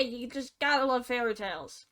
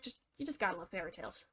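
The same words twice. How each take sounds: First: Said in the usual way. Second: Fast, much softer sarcastic aside; muttered sarcasm. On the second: Acted. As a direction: mutter it under your breath, dry.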